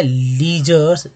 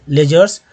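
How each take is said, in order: First: "लीजर्स" slowly, with a stretched "ली"; long lee opening. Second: "लेजर्स" opened with "ले", joined up; le opening. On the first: Teacher models first reading of word. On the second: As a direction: start "लेजर्स" with le, not lee. Teacher gives second reading of word. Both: Shown as a demonstration.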